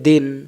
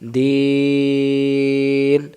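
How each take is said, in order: First: The vowel is short, not drawn out. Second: The vowel is drawn out long. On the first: The speaker calls it wrong. "এখানে টান না দিলে উচ্চারণটা কি হবে? ... তখন ইয়া অক্ষরটা কমে গেল" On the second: The speaker calls it right. "এবার তিন অক্ষর আদায় হলো"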